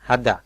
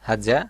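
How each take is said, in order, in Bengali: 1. মাঝের ব্যঞ্জনটি d ধ্বনি। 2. মাঝের ব্যঞ্জনটি z-এর মতো ধ্বনি। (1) "অনেক সময় হাদা বলা হয়" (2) "সঠিক উচ্চারণটা হাজা"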